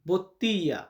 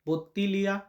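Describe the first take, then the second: First: The middle l sound is dropped, giving a y sound. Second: The middle l sound is clearly pronounced. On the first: It follows the strict spelling rule. "আমরা যদি Italian article focus করতে যাই ওয়ার্ডের ভিতরে, এটার উচ্চারণ আসবে বত্তিয়া" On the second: It breaks the rule, as is usual in everyday speech. "আর্টিকেল ভেঙে আমরা নর্মাল প্রেজেন্টেশন করি সব সময়"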